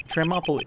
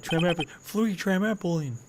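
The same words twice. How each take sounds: First: TRAMPOLINE fumbled, high, syllables muddled; tripping over word. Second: TRAMPOLINE drawn out slowly and high; exaggerated retry. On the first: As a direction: stumble over the word "trampoline" in a higher pitch. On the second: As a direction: have another go at "trampoline", high and stretched out. Retries the fumbled word, exaggerated. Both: Real, not acted.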